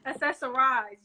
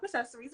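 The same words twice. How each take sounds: First: "Accessorize" ending in an "-eyes" sound; corrected pronunciation. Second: "Accessories" ending in an "-eez" sound; mistaken pronunciation. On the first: Host repeating guest's correction, "Accessorize" ending like "eyes". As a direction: say "Accessorize" like the verb, rhyming with "eyes". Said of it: "it's Shop Accessorize". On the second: Host naming the guest's shop, mispronouncing it as "Accessories" with "-eez". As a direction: say "Accessories" like the ordinary plural noun. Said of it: "I don't know why I said that". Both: Real, not acted.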